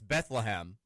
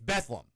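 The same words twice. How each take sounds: First: The word is said with three syllables. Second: The word is said with two syllables. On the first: It is the name of the biblical town. The speaker calls it wrong. "You would think that it's Bethlehem, right? Like where Jesus was born" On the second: It is the local name of the Kentucky town. The speaker calls it right. "It's Bethlehem. B E T H L E M"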